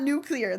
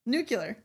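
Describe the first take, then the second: First: Nuclear said as "new-clee-er"; disputed "new-clee-er" for "nuclear"; rejected pronunciation. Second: Nuclear said as "new-kyu-ler"; matter-of-fact "new-kyu-ler" for "Nuclear"; insisted mispronunciation. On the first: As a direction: pronounce "nuclear" with "clee" in the middle. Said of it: "It's not nuclear". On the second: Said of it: "It's nuclear". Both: Shown as a demonstration.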